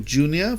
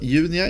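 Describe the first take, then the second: First: The name is pronounced the English way. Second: The name is pronounced the Swedish way. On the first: "for you guys" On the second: "in Swedish"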